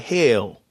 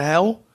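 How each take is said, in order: First: HELL said like "hail"; Southern pronunciation. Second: Said in the usual way. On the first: Shown as a demonstration. Explaining Southern speech to viewers, HELL pronounced like "hail". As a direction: stretch HELL so it sounds like "hail". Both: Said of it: "People in the South pronounce the word hell".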